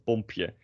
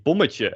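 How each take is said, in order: First: "bompje" with p straight after the m; wrong diminutive form. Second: "bommetje" with a short vowel and an extra syllable before tje; correct diminutive form. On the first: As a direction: sound out "bompje" in Dutch as the mistaken form. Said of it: "and not bompje". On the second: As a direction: sound out "bommetje" in Dutch as the model. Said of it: "you say bommetje and not". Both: Shown as a demonstration.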